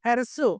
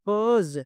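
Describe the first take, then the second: First: The word ends in a hissing s sound. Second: The word ends in a buzzing z sound. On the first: The speaker calls it wrong. "హెర్సు కాదండి" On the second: The speaker calls it right. "ఇలా చెప్పాలి"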